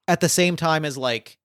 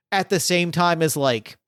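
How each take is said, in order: Both takes have the same delivery.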